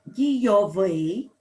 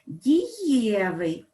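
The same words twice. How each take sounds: First: Дійовий with final -ВИЙ stressed; stress on the ending. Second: Дієвий drawn out with stress on Є; stress on the stem. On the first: Teacher contrasting stress for pupils, дійовий stressed at the end. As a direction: hit the last syllable, дійо-ВИЙ. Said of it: "падає на закінчення". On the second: Teacher contrasting stress for pupils, дієвий stressed on Є. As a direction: slowly stress the middle syllable, ді-Є-вий. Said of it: "наголос у нас падає на основу". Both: Shown as a demonstration.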